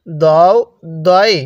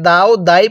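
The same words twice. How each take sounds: First: "দও দই" with rounded "o" vowels; correct letter pronunciation. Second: "দাও দাই" with open "aa" vowels; incorrect letter pronunciation. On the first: Teacher models the proper reading, "দও দই" with rounded vowels. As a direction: say "দও, দই" as "daw-o, daw-i", separately. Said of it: "এটাকে কিভাবে পড়তে হবে?". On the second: Teacher warns learners off this reading, "দাও দাই" with open aa. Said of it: "পড়া যাবে না, ঠিক আছে?". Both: Shown as a demonstration.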